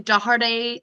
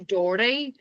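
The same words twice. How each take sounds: First: The name is said with three syllables. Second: The name is said with two syllables. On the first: This is how people elsewhere tend to say it. "give it the three syllables" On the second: This is how it is said locally in Derry. "In Derry, we say Doherty, well, and that is, I believe, incorrect"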